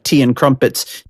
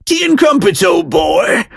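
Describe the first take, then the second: First: Said in the usual way. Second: High, hammed-up British accent; mock British. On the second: Host swapping donuts for tea and crumpets, mock British accent. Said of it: "if you mention anything about being British".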